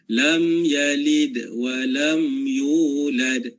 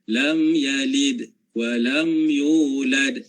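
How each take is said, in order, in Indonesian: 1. Suara langsung berlanjut setelah 'yalid' tanpa jeda. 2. Suara berhenti sebentar setelah 'yalid' sebelum melanjutkan. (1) "sambungan terus"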